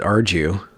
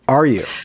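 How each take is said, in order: First: The middle consonant is a J sound. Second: The middle consonant is a Y glide. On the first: The speaker calls it wrong. "I don't pronounce it Arju, like Arjuna" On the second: The speaker calls it right. "It's just are you. It flows better"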